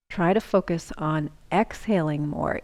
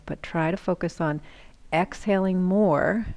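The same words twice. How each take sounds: First: Said in the usual way. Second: "exhaling more" slowed right down and leaned on; stress on exhaling more. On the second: Shown as a demonstration. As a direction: drag out "exhaling more" to drive it home. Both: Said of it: "It sounds counterintuitive".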